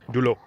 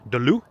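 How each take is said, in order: First: The first vowel is rounded, like 'dew'. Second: The first vowel is unrounded, like 'duh'. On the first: The listener understood it. The speaker calls it right. "she couldn't understand me until I said du l'eau" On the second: The listener could not understand it. The speaker calls it wrong. "I was pronouncing it de l'eau"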